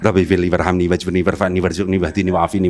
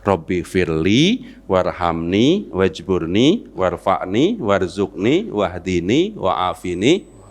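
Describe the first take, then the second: First: It is recited quickly without pauses between requests. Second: It is recited slowly with pauses between requests. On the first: The requests are rushed without care. The speaker calls it wrong. "Ya pelan dikit lo" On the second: Each request is made politely and thoughtfully. The speaker calls it right. "kayak saya barusan"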